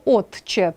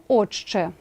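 First: Said in the usual way. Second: «отче» said with a long ч, "ochche"; pronunciation demo. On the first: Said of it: "пишемо". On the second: Shown as a demonstration. Teacher showing the spoken form of «отче». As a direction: merge т into a doubled ч in «отче». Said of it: "а вимовляємо".

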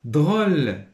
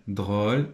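First: "Drôle" raised, loud and lengthened; emphatic read-out. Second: Said in the usual way. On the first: Shown as a demonstration. Teacher announces the next word to pupils, emphatic. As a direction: call out "Drôle" high and strong.

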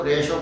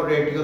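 First: रेशो said with sh, resho; sh sound. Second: रेटियो said with a hard t, retiyo; wrong t sound. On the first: Teacher showing students the correct ratio. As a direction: say रेशो with a clear sh, the right way. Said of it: "इसको रेशो कहेंगे". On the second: Teacher showing students how not to say ratio. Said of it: "रेटियो तो नहीं बोलेंगे". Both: Shown as a demonstration.

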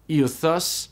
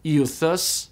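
First: Euthus said again alone, rising, "oo-thoos"; repeated Greek word. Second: Euthus said "yoo-thoos"; Greek word modelled. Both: Shown as a demonstration. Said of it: "is pronounced euthus".

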